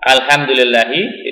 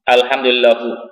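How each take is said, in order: First: The word ends with an 'i' vowel. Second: The word ends with a 'u' vowel. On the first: The speaker calls it right. "Yang seharusnya dibaca" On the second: The speaker calls it wrong. "di situ dibaca alhamdulillahu, illahu, jangan ya"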